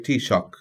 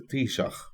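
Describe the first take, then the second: First: The word ends with a hard k sound. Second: The word ends with a breathy ch sound.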